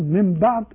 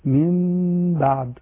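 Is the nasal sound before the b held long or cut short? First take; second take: cut short; held long. First: The m goes straight into b without nasal hum. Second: A nasal hum is held on m before b. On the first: The speaker calls it wrong. "وبعدين بعد على طول من بعد، يبقى كده ما فيش إخفاء" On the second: The speaker calls it right. "هنجيب زمن للغنة فتقول من بعد"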